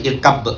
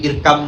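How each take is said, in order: First: The b sound is clearly pronounced. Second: The b sound is dropped into the next word. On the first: The speaker calls it wrong. "tidak dibaca irkab pakai ba" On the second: The speaker calls it right. "Ba hilang kan?"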